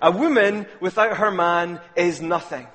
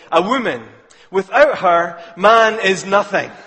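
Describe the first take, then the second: First: It runs on with no pause after woman. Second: It pauses after woman and after her.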